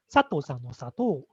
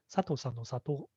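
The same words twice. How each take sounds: First: The pitch changes are strongly exaggerated. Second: The pitch changes are mild and natural. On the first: "right now I'm just exaggerate myself so you can hear the change of the pitch clearly" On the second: "So normally I, when we say like"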